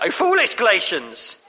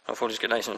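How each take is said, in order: First: It is said with anguish and passion. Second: It is said flatly, without much feeling. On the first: The writer is deeply distressed. The speaker calls it right. "You can hear the anguish in Paul's voice" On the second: The writer sounds unconcerned. The speaker calls it wrong. "we read it a bit like"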